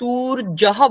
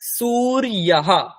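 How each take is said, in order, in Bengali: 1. মাঝের ব্যঞ্জনটি একটি কঠিন 'j' ধ্বনি। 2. মাঝের ব্যঞ্জনটি একটি নরম 'y' ধ্বনি। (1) "সেটা ভুল হয়ে যাবে। তখন আমি শুনে বুঝবো যে ওখানে আপনি বর্গের জ উচ্চারণ করছেন" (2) "এর উচ্চারণ ইয় যেরকম হয় তেমন করতে হবে"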